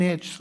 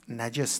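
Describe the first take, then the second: First: «نجس» with an e, then j and s run together; nejs pronunciation. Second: «نجس» with a first, e before the s; najes pronunciation. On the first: Teacher cites the variant reading, «نجس» said as "nejs". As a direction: say «نجس» as one syllable, "nejs". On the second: Teacher gives the usual reading, «نجس» said as "na-jes". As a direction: say «نجس» as two syllables, "na-jes". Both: Shown as a demonstration.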